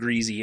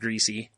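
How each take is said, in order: First: It is said the dad's West Virginia way. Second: It is said the standard way.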